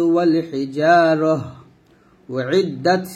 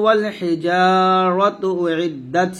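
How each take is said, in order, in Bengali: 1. 'hijarah'-এর পরে একটা থামা আছে। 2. Hijaratu সরাসরি পরের শব্দে গিয়ে মেশে। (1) "তো এরকম থেমে পড়তে পারি" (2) "আর মিলে মিলে পড়ছি আমি"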